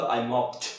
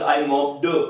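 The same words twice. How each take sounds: First: "mopped" ending in a crisp "t"; smart, correct -ed. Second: "mopped" as a clumsy "mop-duh"; wrong -ed sound. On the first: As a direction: say "mopped" as "mopt", no extra vowel. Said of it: "आपको smartly बोलना तो". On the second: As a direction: end "mopped" in a voiced "duh", as learners do. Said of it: "बहुत बुरा लग रहा है यार". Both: Shown as a demonstration.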